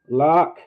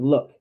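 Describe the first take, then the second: First: The vowel is an open 'uh' sound. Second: The vowel is a rounded 'oo' sound. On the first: This is the word as written in Hebrew letters. "it will sound like luck" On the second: This is the original English word. "instead of look"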